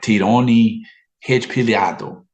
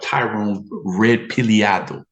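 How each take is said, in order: First: The name is said with a Brazilian Portuguese accent. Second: The name is said with an American English accent.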